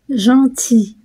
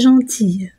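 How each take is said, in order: First: The word ends in a vowel; the L is silent. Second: The word ends in a pronounced consonant sound. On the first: The speaker calls it right. "I L se prononce I" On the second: The speaker calls it wrong. "non pas gentille, pour le masculin de gentil"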